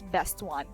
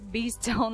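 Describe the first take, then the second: First: The name sounds like two clear words, Best One. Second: The name sounds like one blended word, Beastone. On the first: The speaker calls it right. "actually I realized that it's Best One" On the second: The speaker calls it wrong. "I was pronouncing it like Beastone last time"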